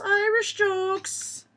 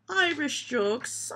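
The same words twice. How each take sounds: First: Put-on slow Irish accent, pitched much higher. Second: Put-on slow, drawn-out Irish accent. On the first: Repeating the heading higher in a mock Irish accent. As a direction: sing it out in a high mock Irish lilt. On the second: Reading the joke heading in a mock Irish accent. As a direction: savour it in a mock Irish lilt. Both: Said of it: "doing it in an Irish accent".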